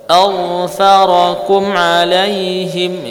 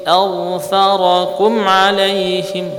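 No difference in how they are said.

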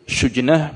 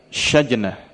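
First: The first vowel is a rounded 'u' sound. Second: The first vowel is an open 'a' sound. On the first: "bisa dibaca dengan dhammah" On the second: "dengan di fathah"

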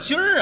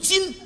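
First: The word ends with an r-colored sound. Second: The word ends without an r-colored sound. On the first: The speaker calls it wrong. "什么叫今儿啊" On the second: The speaker calls it right. "正字读今"

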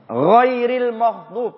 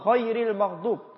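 First: The first word begins with a voiced throaty gh. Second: The first word begins with a voiceless rasping kh. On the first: The speaker calls it right. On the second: The speaker calls it wrong.

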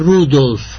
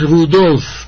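First: The stress is on the first syllable. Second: The stress is on the second syllable. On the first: The speaker calls it wrong. "no Rudolf" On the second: The speaker calls it right. "Es Rudolf ... con el acento de prosódico en la O"

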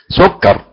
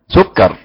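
Both takes have the same delivery.

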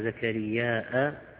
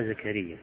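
First: The name ends in a long vowel and glottal stop. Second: The name ends in a short plain vowel. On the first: "كما يظهر في القراءة الثانية زكرياء" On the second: "الألف المقصورة"

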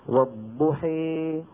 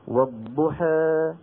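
First: The final vowel is raised strongly toward e. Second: The final vowel is raised only slightly toward e. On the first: "لو حبينا نقرأها بالإمالة الكبرى" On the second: "لو حبينا نقرأها بالتقليل مثلا إما لورش أو لأبي عمرو البصري"

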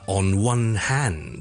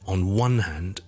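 First: The stress falls on the word hand. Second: The stress falls on the word one. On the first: The speaker calls it wrong. "我哋唔需要say" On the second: The speaker calls it right. "我哋通常呢個stress is on the word one"

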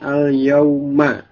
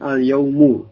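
First: The word ends with an 'a' vowel. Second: The word ends with a 'u' vowel. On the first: It means on this particular day. "Ini huruf akhirnya dibaca dengan fathah" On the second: It simply means a day. "yang huruf akhirnya dengan dhammah"

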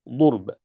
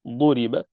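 First: The middle consonant has no vowel after it. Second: The middle consonant carries a short i vowel.

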